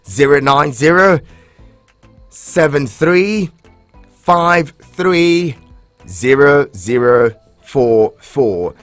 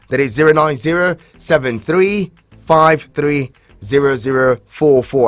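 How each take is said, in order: First: The number is read slowly. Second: The number is read quickly.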